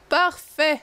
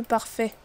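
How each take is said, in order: First: A higher, louder satisfied Parfait; pleased. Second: Said in the usual way. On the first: Real, not acted. Route found, she exclaims Parfait with higher, louder satisfaction. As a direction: declare it done with relish.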